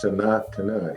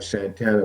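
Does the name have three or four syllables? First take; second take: four; three. First: The name is said with four syllables. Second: The name is said with three syllables. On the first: The speaker calls it right. "but actually it's Sanatana" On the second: The speaker calls it wrong. "some people pronounce it, they think it like Santana"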